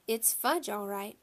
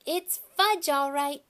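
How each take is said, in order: First: Said in the usual way. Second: Put-on high, loud toddler voice; little brother parroting. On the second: A narrator's reading. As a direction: parrot it like an excited little kid. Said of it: "my brother repeated".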